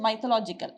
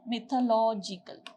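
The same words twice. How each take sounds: First: The first syllable does not sound like 'myth'. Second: The first syllable sounds like the word 'myth'. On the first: The speaker calls it wrong. "You don't pronounce it as mythological" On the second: The speaker calls it right. "you pronounce it as mythological"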